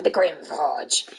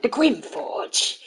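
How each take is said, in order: First: Low, slow GRIM FORGE; ominous line read. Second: Slow, drawn-out GRIM FORGE; dramatic line read. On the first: Streamer recalling a recording session, low slow dramatic read. Second take, pitched far lower. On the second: Streamer recalling a recording session, slow dramatic read. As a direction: stretch "Grim Forge" out theatrically. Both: Shown as a demonstration.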